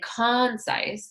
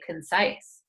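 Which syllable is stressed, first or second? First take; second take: first; second. First: The stress is on the first syllable. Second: The stress is on the second syllable. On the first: The speaker calls it wrong. "we don't say concise" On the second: The speaker calls it right. "we say concise"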